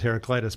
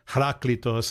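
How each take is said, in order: First: The name is said with an English pronunciation. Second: The name is said with a Greek pronunciation. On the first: "I always pronounce it as Heraclitus" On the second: "is probably what it is in Greek"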